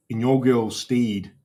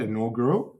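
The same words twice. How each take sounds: First: "Inaugural" said quickly as in-YOR-gurl, a first unsure try; first tentative go at "Inaugural"; unsure pronunciation. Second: "Inaugural?" retried as in-YOR-gul with a checking rise; questioning pronunciation. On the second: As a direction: try "Inaugural" again, asking if it's right. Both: Shown as a demonstration. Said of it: "Is that how I say it?".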